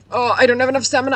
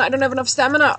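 First: Fast, high panicked yelp; alarmed climbing shout; panicked cry. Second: High, loud repeated panic; alarmed repeat of the stamina cry; panicked cry. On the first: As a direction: cry out as the stamina runs dry. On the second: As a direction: yell it again in alarm. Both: Real, not acted.

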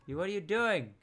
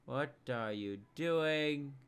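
First: Startled challenge. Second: Slow, stretched-out question; slow, incredulous challenge; drawn-out questioning. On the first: Challenges another player, first take. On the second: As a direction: drag each word out in disbelief. Repeats the question slowly. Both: Real, not acted.

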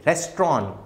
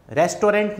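First: रेस्टोरेंट said as res-tron, clipped short, with no t at the end; correct pronunciation. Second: रेस्टोरेंट said as res-to-rent, every letter spelt out with a clear final t; wrong pronunciation. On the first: Teacher giving the class the correct form, रेस्टोरेंट as res-tron. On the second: Teacher demonstrating the common mistake to his class, रेस्टोरेंट as res-to-rent. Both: Shown as a demonstration. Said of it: "रेस्टोरेंट नहीं बोलेंगे".

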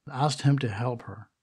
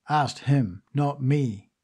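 First: Said in the usual way. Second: "Asked him" with "him" leaned on, then "not me" set against it; stress on him and me. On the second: A narrator's reading. Margola stressing that Eve asked her husband, not her. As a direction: hit "him", then answer it with "me".

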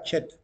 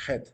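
First: "Chet" with a hard ch, as in church; English-style pronunciation. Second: "Het" with a throaty kh, no tch; Hebrew pronunciation. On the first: Teacher showing what the rabbi did not say, ch pronunciation. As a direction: start "Chet" on a crisp tch. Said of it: "No decía Chet". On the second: Teacher showing what the rabbi did say, throaty pronunciation. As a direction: start "Het" like a Spanish J. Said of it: "decía Het". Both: Shown as a demonstration.

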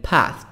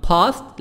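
First: American "Past" with the A of cat; American accent. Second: British "Past" with broad AH; British accent. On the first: Teacher contrasting accents, American "Past" with front A. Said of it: "الأمريكان". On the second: Teacher repeating the British model, "Past" with broad AH. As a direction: say "pahst" as the British do. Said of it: "نطق البريطاني". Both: Shown as a demonstration.

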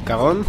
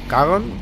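First: Said in the usual way. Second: "Cagón" bent to rhyme with English Dragon; forced rhyme. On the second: Shown as a demonstration. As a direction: try out "Cagón" as a rhyme, pitched up.

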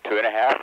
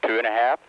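The two takes are said the same way.

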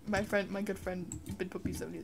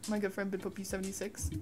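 First: "Bin Puppy seventy" said as a garbled wrong name, trailing off softer; misread name. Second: "Bidpoppy seventy-six" read out carefully and fast as the right name; quickly fix it to "Bidpoppy seventy-six"; corrected name. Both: Real, not acted. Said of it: "What the hell is that?".

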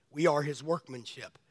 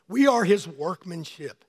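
First: Much softer, "are" leaned on, let "We are his workmanship" sink in; preacher repeating the verse softly for reflection; soft echo. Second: Slow, each word weighted, "we" leading; slow emphatic. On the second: Preacher driving home the verse, slow and emphatic. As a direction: lean hard on "We are his workmanship". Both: Shown as a demonstration. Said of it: "Think about that scripture".

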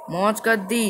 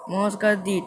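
No difference in how they are said.

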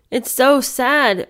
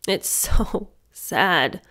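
First: Said in the usual way. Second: Very slow, laughing through the words; a sad little laugh on it; rueful laugh. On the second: Real, not acted. Laughing ruefully to her viewers at the sad scene.

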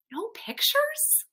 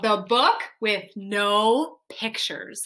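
First: High, softer puzzled echo; taken aback, voice lifting right up; surprised question. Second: Said in the usual way. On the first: Acted. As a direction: ask it in high-pitched, quiet disbelief. Reader reacts surprised to title.

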